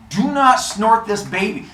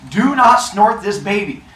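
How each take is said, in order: First: Slow stress on not, warning; stern warning. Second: Slow, louder, stressing Do not; stern warning. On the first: [name] warning her husband before handing him the baby, stress on not. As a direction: lay it down slowly, hitting not. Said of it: "she's like". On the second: [name] repeating the warning for the class, slow firm stress on Do not. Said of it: "Phrases you never thought". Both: Retold or imitated.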